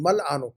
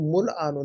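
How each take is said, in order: First: The first vowel is an 'a' sound. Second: The first vowel is an 'u' sound. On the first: The speaker calls it right. "शुरू में सब जबर आ रहा है" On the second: The speaker calls it wrong. "आपने पेश लगाया हुआ है"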